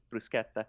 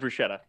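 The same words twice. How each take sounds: First: The 'sch' is said like 'sk'. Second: The 'sch' is said like 'sh'. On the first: The speaker calls it right. "but in Italian it's bruschetta" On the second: The speaker calls it wrong. "that's how it would be pronounced in English, or in, you know, German or anything that SCH"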